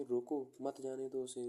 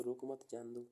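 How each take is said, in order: First: "रोको" set apart, "मत जाने दो उसे" together; pause after रोको. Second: "रोको मत" joined, then "जाने दो"; pause after मत. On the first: Host stopping a friend from leaving, pause after रोको. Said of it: "दोस्त आया तो आप क्या कहोगे?". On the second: Host letting a non-friend go, मत grouped with रोको. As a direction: keep मत with रोको. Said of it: "और नहीं आया दोस्त तो". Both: Shown as a demonstration.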